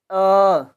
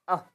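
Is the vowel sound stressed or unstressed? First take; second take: stressed; unstressed. First: The vowel is said with stress. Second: The vowel is said without stress. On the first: "in a stressed version" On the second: "unstressed version without stressing the sound"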